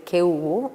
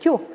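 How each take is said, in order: First: The vowels are said as separate syllables. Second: The vowels are merged into one diphthong. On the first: "en vez de decir ¿qué hubo?" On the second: "coloquialmente y en las hablas más descuidadas pasó a ser ¿qué hubo?"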